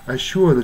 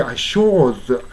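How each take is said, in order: First: "assured" as "a-shoo-ad"; not-British assured. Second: "assured" as "a-shawd"; non-rhotic "a-shawd" for "assured"; British-style assured. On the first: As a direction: keep the oo glide in "assured". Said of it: "assuredじゃなくて". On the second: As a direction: open "assured" to a long aw. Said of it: "じゃなくてassured". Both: Shown as a demonstration.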